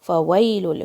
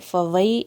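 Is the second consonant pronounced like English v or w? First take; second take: w; v. First: The second consonant sounds like English w. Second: The second consonant sounds like English v. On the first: The speaker calls it right. "सिर्फ लिप्स का काम है" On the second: The speaker calls it wrong. "वाव को वी की तरह नहीं पढ़ना है, फ़वई ऐसे नहीं पढ़ना है"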